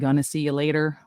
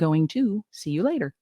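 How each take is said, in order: First: 'Going to' is reduced to 'gonna'. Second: 'Going to' is said fully as two words. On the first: The read sounds casual, like talking to friends. The speaker calls it wrong. "Casual Karen" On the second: The read sounds professional. The speaker calls it right. "when it should really be"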